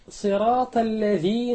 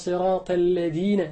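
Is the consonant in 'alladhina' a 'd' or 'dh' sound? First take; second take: dh; d. First: The word is said with a 'dh' sound. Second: The word is said with a 'd' sound. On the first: The speaker calls it right. "بدلا من أن يقول صراط الذين أنعمت عليهم" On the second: The speaker calls it wrong. "أبدل دال الذين ذال الذين بدال"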